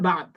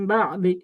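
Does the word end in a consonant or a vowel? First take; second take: consonant; vowel. First: The word ends on a consonant. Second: The word ends with an 'i' vowel. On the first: The reciter stops at this word. "এটার উপর অক্ষ করলে" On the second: The reciter continues without stopping. "অক্ষ না করলে"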